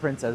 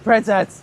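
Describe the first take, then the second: First: The name is said at a normal volume. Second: The name is yelled very loudly.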